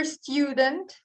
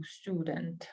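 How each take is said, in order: First: "student" said as stjudent with a y glide; yu variant. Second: "student" as stoodent with a plain oo; no y glide, plain oo in "student"; American oo. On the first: Teacher showing the acceptable stjudent variant. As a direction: slip a y before the oo in "student". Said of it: "It's also acceptable". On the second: Teacher showing the American way of saying student. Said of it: "we say more as u". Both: Shown as a demonstration.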